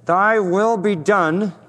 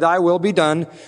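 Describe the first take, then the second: First: It is said with bitter resentment. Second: It is said in a plain, sincere tone. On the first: The speaker resents having to accept what happens. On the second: The speaker willingly accepts what happens.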